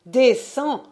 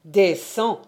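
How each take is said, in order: First: Higher and louder, rising; escalating command. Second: Said in the usual way. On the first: Acted. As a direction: push the second "descends." up high and loud with a rise. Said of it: "repeated command escalated". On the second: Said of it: "descends (second, raised)".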